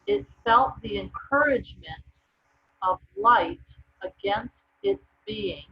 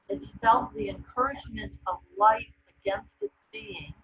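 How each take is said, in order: First: It is read more loudly. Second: It is read more softly.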